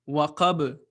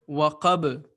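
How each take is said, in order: Both takes have the same delivery.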